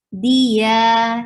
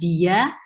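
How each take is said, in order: First: The d is soft with no 'y' glide. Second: A clear 'y' glide follows the d. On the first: The speaker calls it right. "but it's dia, yeah, very soft letter" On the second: The speaker calls it wrong. "it's not dia"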